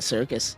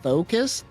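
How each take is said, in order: First: The word begins with an s sound. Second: The word begins with a th sound. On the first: The speaker calls it right. "I would recommend just calling it the circus" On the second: The speaker calls it wrong. "some idiots over at the wiki taking it too literal"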